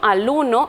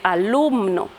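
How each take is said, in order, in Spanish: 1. La palabra se dice sin el sonido m. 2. La palabra se dice con el sonido m. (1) "suprimimos la M" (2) "en vez de decir"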